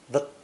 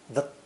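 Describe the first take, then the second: First: The word is said weakly with a reduced vowel. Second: The same.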